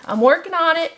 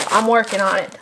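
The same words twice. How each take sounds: First: I'm working on it lifted high, stress on on; playful insisting I'm working on it; higher repeat. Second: Said in the usual way. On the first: Shown as a demonstration.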